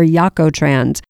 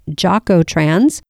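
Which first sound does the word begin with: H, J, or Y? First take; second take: Y; J. First: The word begins with a Y sound. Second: The word begins with an English J sound. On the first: "or Yakotrans" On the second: "you might hear it pronounced Jocotrans"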